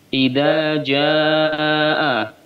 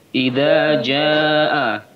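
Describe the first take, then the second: First: The final vowel is stretched out longer. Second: The final vowel is held only briefly. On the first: The speaker calls it right. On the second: The speaker calls it wrong.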